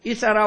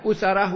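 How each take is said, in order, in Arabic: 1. تبدأ الكلمة بحركة i. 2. تبدأ الكلمة بحركة u. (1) "ويجوز الكسر للهمزة" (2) "ويجوز الضم مع الفتح"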